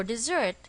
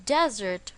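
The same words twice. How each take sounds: First: "dessert" with the stress on its second syllable, di-ZERT. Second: "desert" with the stress on its first syllable, DEZ-ert. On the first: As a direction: lean on the end of "dessert", di-ZERT. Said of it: "the stress is on the second syllable". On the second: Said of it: "the stress is on the first syllable". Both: Shown as a demonstration.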